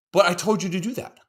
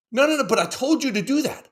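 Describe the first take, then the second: First: Said in the usual way. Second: Higher, insistent dad repeating himself; exasperated dad, pitch up. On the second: Retold or imitated. Dad repeating himself to his kids, higher and insistent. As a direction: push the point louder and higher.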